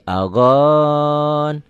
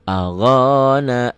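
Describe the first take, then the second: First: The word ends on a consonant, no final vowel. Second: The word ends with a full final vowel. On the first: The reader stops at this word. "Kalau dihentikan menjadi" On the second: The reading continues without stopping.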